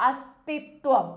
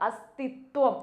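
The two takes are said the same way.

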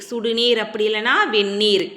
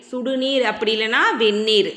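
The two takes are said the same way.

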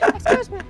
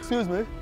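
First: It is said in a very high-pitched voice. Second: It is said in a very deep voice.

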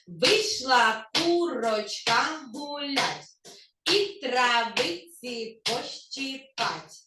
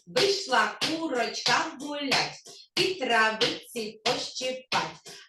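First: The phrase is spoken at a fast pace. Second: The phrase is spoken at a very fast pace. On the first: "А тепер давайте швидше, швидко" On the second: "спробуємо ще швидше сказати"

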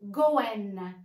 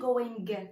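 First: The final g sound is dropped. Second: The final g sound is pronounced. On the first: The speaker calls it right. "غنحيدو الجي at the end" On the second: The speaker calls it wrong. "ماشي going"

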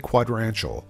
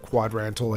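First: The word ends with an extra 'shul' sound. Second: The word ends with a plain 'tal' sound. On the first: The speaker calls it wrong. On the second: The speaker calls it right.

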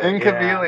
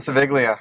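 First: The second syllable begins with a k sound. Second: The second syllable begins with an s sound. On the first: The speaker calls it right. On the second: The speaker calls it wrong. "I've been pronouncing it wrong all these years"

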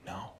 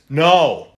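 First: It is said quietly. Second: It is said loudly.

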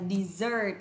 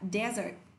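First: The stress is on the second syllable. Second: The stress is on the first syllable. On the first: It means a sweet course after a meal. "trọng âm rơi thứ hai này" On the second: It means a sandy wasteland. "Từ này cho âm rơi vào thứ nhất ạ"

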